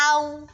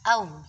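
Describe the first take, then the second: First: The vowel is stretched long with mouth wide. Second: The vowel is bent toward another vowel. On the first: "saking pengennya muangap, akhirnya dibaca au" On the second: "bukan dibaca au, au seperti itu"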